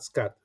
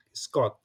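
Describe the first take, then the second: First: "Scott" the English way, with a hard, aspirated t at the end; the wrong take, said as in English; English pronunciation. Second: "Scott" the local way, with a soft, unaspirated t; the correct take, said the Indonesian way; Indonesian pronunciation. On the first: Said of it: "it's not Scott". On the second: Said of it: "Scott is pronounced locally as Indonesian pronunciation". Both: Shown as a demonstration.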